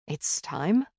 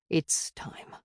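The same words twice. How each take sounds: First: "It's time?" lifting at the end as a question; a gentle check, voice tipping up on "time". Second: "It's time." falling away softly on "time"; hushed, final answer sinking on "time"; resigned confirmation. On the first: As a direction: ask "It's time?" tentatively, rising on "time". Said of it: "I checked". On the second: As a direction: confirm "It's time." quietly, with a downward close. Confirms the question just asked. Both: A narrator's reading.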